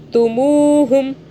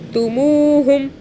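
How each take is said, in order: No difference in how they are said.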